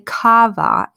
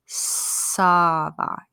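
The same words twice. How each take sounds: First: The first word starts with a hard K sound. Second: The first word starts with an S sound. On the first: The speaker calls it wrong. "don't say ça va" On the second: The speaker calls it right. "It's a S sound"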